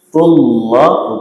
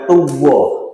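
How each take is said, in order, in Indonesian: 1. Konsonan di tengah itu L tebal. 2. Konsonan di tengah itu W. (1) "Tullah bukan tuwah" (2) "bukan tuwah"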